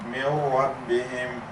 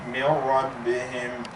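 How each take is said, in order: First: The n sound merges fully into the r. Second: The n sound merges fully into the r.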